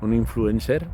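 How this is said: It is said with a Catalan or Spanish accent. "style catalan ou style espagnol"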